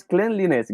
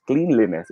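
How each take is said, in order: First: Cleanliness with short e, klen-li-ness; correct pronunciation. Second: Cleanliness with long ee, kleen-li-ness; mistaken pronunciation. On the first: Teacher confirming the answer, cleanliness as klen-li-ness. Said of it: "It should be pronounced as". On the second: Teacher explaining the common mistake, cleanliness as kleen-li-ness. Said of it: "the idea that this is pronounced as". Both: Shown as a demonstration.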